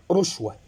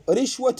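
First: ورشوة with short u, "rushwa"; damma on ra. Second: رشوة with short i, "rishwa"; kasra on ra. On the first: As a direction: open the noun in ورشوة with "ru". (ورشوة بضم الراء) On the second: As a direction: open رشوة with "ri". (رشوة بكسر الراء) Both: Shown as a demonstration. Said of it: "بكسر الراء وبضمها".

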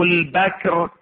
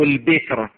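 First: البكر said "al-bakr", open "a" after the ب; fatha on البكر. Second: البكر said "al-bikr", short "i" after the ب; kasra on البكر. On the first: Teacher rereads the ruling both ways, fatha on البكر. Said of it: "أو البكر بالفتح". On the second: Teacher rereads the ruling both ways, kasra on البكر. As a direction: close the vowel in البكر to "bikr". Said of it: "أو بالكسر". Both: Shown as a demonstration.

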